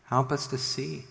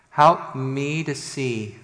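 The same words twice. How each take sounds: First: Said in the usual way. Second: "me" drawn out and louder; stress on me. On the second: Real, not acted. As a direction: make it personal, leaning slowly on "me". Prayer turns to himself.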